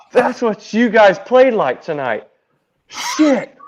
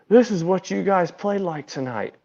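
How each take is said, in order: First: Loud, high mock outburst; pitched-up shout that peaks on the last word; manager's loud retold scolding. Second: Higher voice at ordinary volume; restrained mock telling-off; manager's retold scolding. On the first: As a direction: imitate a manager berating his team, raised voice. Manager berates team after his demonstration. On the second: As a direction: imitate an irked manager making his point, pitched up. Manager crouches, scolding the team.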